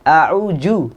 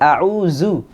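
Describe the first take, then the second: First: The middle consonant sounds like a 'j'. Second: The middle consonant sounds like a 'z'. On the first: "ada yang membacanya dengan jim" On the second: "kebanyakan kita membacanya dengan a'udzu. Zu pakai zai"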